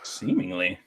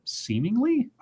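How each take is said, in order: First: Low, quiet deadpan echo. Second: High, quiet incredulous echo. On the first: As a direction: say it flat and dry. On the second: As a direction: question the word in disbelief. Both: Real, not acted.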